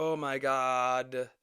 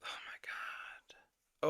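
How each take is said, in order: First: Low, slow voiced groan; exasperated drawl. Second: Slow, breath-only whisper of disbelief; exasperated whisper. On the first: Reactor worn out by the argument, weary drawn-out groan. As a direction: draw it out wearily. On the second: Reactor worn out by the argument, exasperated whisper. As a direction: whisper it, drawn out and drained. Despairing aside after the rant. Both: Real, not acted.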